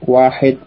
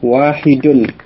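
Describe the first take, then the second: First: The word ends without the case ending. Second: The word ends with the full case ending.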